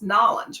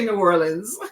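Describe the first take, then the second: First: The name is squeezed into two short syllables. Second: The name is said in full with all syllables. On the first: The speaker calls it right. "Was it Nolans? Nolans, right?" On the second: The speaker calls it wrong. "I always say New Orleans. I don't say it right"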